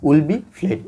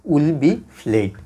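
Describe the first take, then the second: First: Said in the usual way. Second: Very slow, each word apart: will be played; slow dictation. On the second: Shown as a demonstration. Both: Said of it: "rule অনুসারে আপনারা লিখে ফেলেন".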